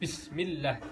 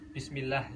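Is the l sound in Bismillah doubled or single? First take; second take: doubled; single. First: The l sound is held long and doubled. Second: The l sound is short and single. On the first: The speaker calls it right. "ada penekanan atau double gitu. Jadi bacanya Bismillah" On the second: The speaker calls it wrong. "Jadi bukan Bismillah gitu"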